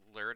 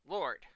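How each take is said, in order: First: The name is said with a Swedish-style vowel. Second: The name is said with an English-style vowel. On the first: The speaker calls it right. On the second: The speaker calls it wrong.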